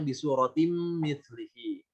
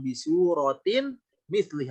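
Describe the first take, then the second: First: The n merges into the following m. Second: The n is kept separate before the m. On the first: The speaker calls it right. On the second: The speaker calls it wrong. "masih ditahan"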